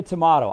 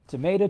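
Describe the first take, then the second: First: "tomato" as tuh-MAH-toe. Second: "tomato" as tuh-MAY-toe. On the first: Wondering how the UK says it, "tomato" as tuh-MAH-toe. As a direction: say "tomato" with a broad ah in the middle. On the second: Comparing accents for the group, "tomato" as tuh-MAY-toe. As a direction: say "tomato" with a long ay in the middle. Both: Shown as a demonstration. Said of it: "not sure how you say it".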